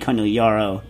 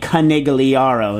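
First: The name is pronounced a non-American way. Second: The name is pronounced the Americanized way. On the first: This is the bartender's name. "not Tony Conigliaro, the bartender" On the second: This is the baseball player's name. "In America, it's Conigliaro"

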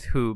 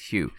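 First: The name is said like 'who', without a glide. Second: The name is said like 'hyoo', with a glide. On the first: The speaker calls it wrong. "I've been pronouncing it who" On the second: The speaker calls it right. "but I think it's Hugh"

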